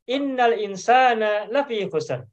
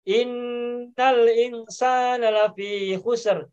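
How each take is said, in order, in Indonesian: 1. Bunyi sengau pada inna dibaca pendek. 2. Bunyi sengau pada inna dibaca panjang. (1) "kalau bicara cukup asal kedengaran ada tasdid sedikit" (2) "Itu kalau baca Al-Quran, ... Innanya dengungnya agak ditahan"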